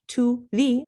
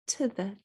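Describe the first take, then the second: First: The vowels are said full and clear. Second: The vowels are reduced to a quick schwa. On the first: The speaker calls it wrong. "not to the" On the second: The speaker calls it right. "but to the"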